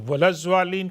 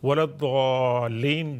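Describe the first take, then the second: First: The key consonant sounds like a z. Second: The key consonant sounds like a heavy d. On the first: The speaker calls it wrong. "वलज़्वालीन कहने से परहेज़ करें" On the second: The speaker calls it right. "जो सही मखरज"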